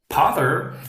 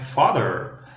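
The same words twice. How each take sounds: First: The word begins with a P sound. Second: The word begins with an F sound. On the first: The speaker calls it wrong. "I heard a Korean student telling me" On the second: The speaker calls it right. "instead of"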